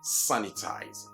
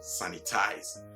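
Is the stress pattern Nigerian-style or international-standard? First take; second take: international-standard; Nigerian-style. First: The stress falls in the international-standard pattern. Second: The stress falls in a Nigerian-style pattern. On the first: The speaker calls it right. "at least by the international standards. So you say what?" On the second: The speaker calls it wrong. "that's the stress form usually associated with our Nigerian friends"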